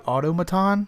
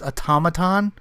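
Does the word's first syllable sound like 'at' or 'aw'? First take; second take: aw; at. First: The first syllable sounds like 'aw', as spelled. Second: The first syllable sounds like 'at' in atomic. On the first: The speaker calls it wrong. "I kept calling the movie Automaton" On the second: The speaker calls it right. "but it's Automaton"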